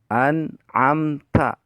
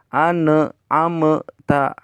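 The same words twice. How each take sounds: First: The n sound is short and clear. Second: The n sound is held long and nasal. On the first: The speaker calls it right. "pondok tur jelas" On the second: The speaker calls it wrong. "ulah kieu"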